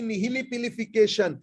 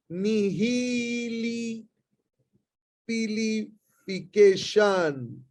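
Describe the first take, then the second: First: Said in the usual way. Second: Nihilipilification stretched very slowly, syllable by syllable; slow teacher demo of the long word; drawn-out pronunciation. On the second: Shown as a demonstration. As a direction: spell out nihilipilification slowly for students to copy. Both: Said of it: "the word is".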